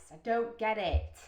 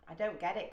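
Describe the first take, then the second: First: "don't" hit louder and slower; emphatic bafflement. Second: Said in the usual way. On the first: Real, not acted. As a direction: stretch and punch "don't get it" in bafflement.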